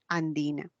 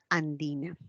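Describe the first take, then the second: The two takes are said the same way.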